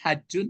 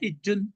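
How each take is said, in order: First: The first vowel is an open 'a'. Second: The first vowel is a close 'i'. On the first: "Kan ada membaca orang hajjun" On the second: "ada membaca hijjun"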